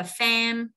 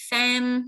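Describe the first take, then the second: First: Said in the usual way. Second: "fan" said "fam", higher, held on a level tone; stressed, high "fan" with a closing M; raised-tone stress. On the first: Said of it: "âm M miếm môi là fan". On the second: Shown as a demonstration. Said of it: "nâng một tông giọng tại vì dấu nhấn".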